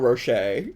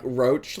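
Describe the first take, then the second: First: It has two syllables ending in 'shay'. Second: It rhymes with cockroach, ending in 'ch'. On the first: "like Ferrero Rocher" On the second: "pronounced like roach, like car- cockroach"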